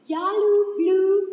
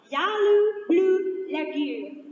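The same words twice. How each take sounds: First: Louder, slow drawn-out call of the name; camp cheer. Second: Slow sung chant of the name; camp chant. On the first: Speaker rallies the audience with the camp name, called out slowly. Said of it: "camp name called out". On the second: Speaker leads the room in the camp chant, sung slowly. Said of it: "camp name chanted". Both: Acted.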